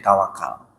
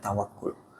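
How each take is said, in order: First: The last vowel is an 'a' sound. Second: The last vowel is a 'u' sound. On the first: This is the Indonesian form of the word. "Bahasa Indonesianya jadi tawakal" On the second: This is the original Arabic reading of the word. "Ini yang benar dibacanya tawakul"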